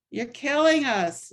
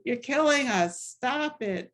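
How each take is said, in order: First: Loud, slow mock yell with a higher pitch; re-creating a protester's scream in church; retold scream. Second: Mild mock yell. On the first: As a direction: shout the protest at the cardinal in a New Jersey accent. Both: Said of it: "he started screaming at Cardinal O'Connor".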